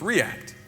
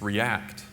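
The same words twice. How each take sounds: First: The stress is on the first syllable. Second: The stress is on the second syllable. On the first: It is the name of the library. "You're supposed to pronounce the first syllable uh, as the accent" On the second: It is the verb meaning to respond. "when it's a verb"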